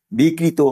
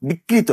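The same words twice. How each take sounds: First: 'বিকৃত' said as bikrit, ending on the t with no vowel after; the proper 'বিকৃত', closed off sharply at the t; correct pronunciation. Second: 'বিকৃত' said as bikrito, with an added final o; the mistaken 'বিকৃত', ending on a clear o vowel; wrong pronunciation. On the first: ('বিকৃত' শুদ্ধ উচ্চারণে, শেষে কোনো স্বর ছাড়া: বিকৃত্) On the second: ('বিকৃত' ভুল উচ্চারণে, শেষে ও-কার দিয়ে: বিকৃতো) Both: Shown as a demonstration. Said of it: "আসলে হবে বিকৃত".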